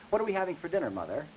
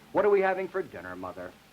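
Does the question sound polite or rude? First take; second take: polite; rude. First: The question sounds polite. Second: The question sounds rude.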